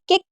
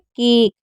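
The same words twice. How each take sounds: First: The vowel is cut short. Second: The vowel is held long. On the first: The speaker calls it wrong. "हम इसे ऐसे बोलेंगे केक तो अजीब लगेगा" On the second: The speaker calls it right. "आप लंबा तो साउंड सुन सकते हैं ना, जैसे केक"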